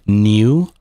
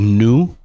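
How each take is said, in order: First: The word has a y glide before the vowel. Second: The word has no y glide before the vowel. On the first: "a lot of Canadians will say new" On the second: "a lot of Americans will say new. They don't have the E sound mixed in"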